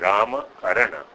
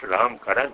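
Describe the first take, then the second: First: The final short vowels are pronounced. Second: The final short vowels are dropped. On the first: The speaker calls it right. "it is Rama Karana" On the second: The speaker calls it wrong. "It is not Ram Karan"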